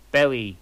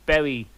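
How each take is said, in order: Both takes have the same delivery.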